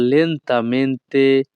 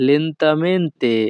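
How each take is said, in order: First: Said in the usual way. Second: Lentamente stretched out very slowly, syllable by syllable. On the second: Shown as a demonstration. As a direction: drag out lentamente to act out its meaning. Teaching the word for slowly.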